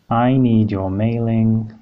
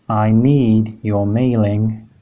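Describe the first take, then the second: Both takes have the same delivery.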